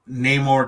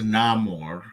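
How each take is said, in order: First: The first vowel is a long A sound. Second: The first vowel is a short ah sound. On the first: This is the older, familiar pronunciation. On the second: This is the changed pronunciation, echoing 'sin amor'.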